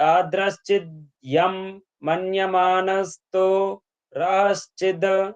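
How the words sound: The phrase is broken up at an awkward point. The reciter does not know the meaning. The speaker calls it wrong. "తెలియనప్పుడు ... ఈ విధంగా పలకడం అనేది జరుగుతుంటుంది"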